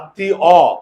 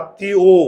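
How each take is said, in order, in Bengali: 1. শব্দটি খোলা 'o' স্বরে শেষ হয়েছে। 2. শব্দটি বদ্ধ 'u'-জাতীয় স্বরে শেষ হয়েছে। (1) "আত্মীয় না আত্মী অ" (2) "আমরা বলি আত্মীয়"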